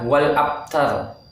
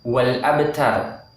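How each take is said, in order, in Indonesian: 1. Huruf b ditutup datar tanpa pantulan. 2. Huruf b dilepas dengan gema yang memantul. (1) "itu salah ya" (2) "huruf ba ini jika disukun atau mati dia mantul"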